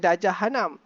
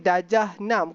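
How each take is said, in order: First: The word begins with an added h sound. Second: The word begins with a plain vowel sound. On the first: The speaker calls it wrong. "bukan darjah hanam" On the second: The speaker calls it right. "darjah enam bukan"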